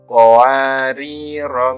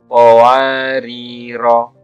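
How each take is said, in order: First: The final vowel is short. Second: The final vowel is short.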